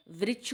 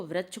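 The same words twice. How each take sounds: First: Said in the usual way. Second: Second वृक्ष mispronounced as vrachh; ri read as ra. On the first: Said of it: "वृक्ष को". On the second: Shown as a demonstration. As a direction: put "a" for "i" in वृक्ष. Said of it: "रा पढ़ देते हैं".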